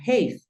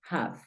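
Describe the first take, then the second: First: The vowel sounds like the letter name 'ay'. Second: The vowel is a short 'a' sound. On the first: The speaker calls it wrong. "esta palabra no suena have" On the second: The speaker calls it right. "Esta palabra suena have"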